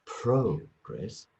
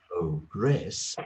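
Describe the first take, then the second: First: PRO-gress, first syllable long and strong; stress on first syllable. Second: Pro-GRESS, weight on the last syllable; slow "progress", landing hard on "gress"; stress on second syllable. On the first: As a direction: say "progress" as the noun, PRO-gress. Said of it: "is, is a noun". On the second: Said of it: "is a verb". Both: Shown as a demonstration.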